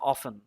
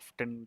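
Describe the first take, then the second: First: The t in the middle is silent. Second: The t in the middle is pronounced. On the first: "ব্রিটিশরা করে অফেন" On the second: "আমি American US প্রনাউন্সিয়েশনটা করি"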